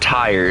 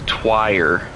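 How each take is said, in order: First: The word starts with a plain t sound. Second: The word has a w sound after the t. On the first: "Not tire" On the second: "Twire is what you're saying right now"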